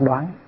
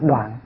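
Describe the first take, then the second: First: The word is read with the đoán tone. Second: The word is read with the đoạn tone. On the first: It means to decide or discern. The speaker calls it right. "chữ này mình phải đọc là đoán" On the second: It means to cut off or destroy. The speaker calls it wrong. "đọc là đoạn thì nó không có nghĩa"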